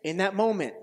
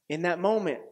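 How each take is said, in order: Both takes have the same delivery.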